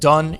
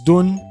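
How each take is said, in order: First: The vowel is the open uh of cup. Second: The vowel is the rounded uh of foot. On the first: "instead of using the U sound for uh in cup" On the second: "you use the uh of foot"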